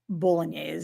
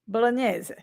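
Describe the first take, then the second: First: It is said with an American accent. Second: It is said with an Italian accent.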